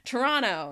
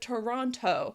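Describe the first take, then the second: First: A syllable or sound is dropped. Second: Every syllable is pronounced in full. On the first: "Toronto instead of" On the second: "instead of Toronto"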